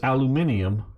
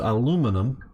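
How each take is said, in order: First: It is said the British way. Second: It is said the American way. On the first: "aluminium that the British use" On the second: "aluminum that the Americans use"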